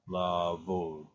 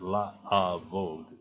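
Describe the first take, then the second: First: The first vowels blend into one long syllable. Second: The first vowels are said as separate syllables. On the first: The speaker calls it right. "you blend the sound together" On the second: The speaker calls it wrong. "it's not la avod"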